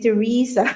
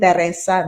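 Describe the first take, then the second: First: The name is said with an Australian pronunciation. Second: The name is said with a Filipino pronunciation. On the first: "in Australia, Teresa Paderes, you will be a Teresa" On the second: "in the Philippines, we call it Teresa"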